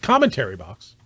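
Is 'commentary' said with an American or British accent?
American. The word is said with an American pronunciation. The speaker calls it wrong. "not commentary box"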